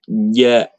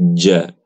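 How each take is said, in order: First: The consonant sounds like a hard g. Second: The consonant sounds like a j sound. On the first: The speaker calls it wrong. "huruf jim bacanya ja, ja, nggak usah didengerin" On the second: The speaker calls it right. "yang benar adalah ja"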